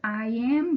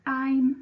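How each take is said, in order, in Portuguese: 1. Ela é dita como duas palavras completas separadas. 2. Ela é dita como uma palavra curta e contraída.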